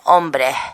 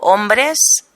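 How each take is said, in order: First: The final s is weakened or dropped. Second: The final s is pronounced clearly. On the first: "ellos dicen hombres" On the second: "que yo digo perfectamente, digo hombres"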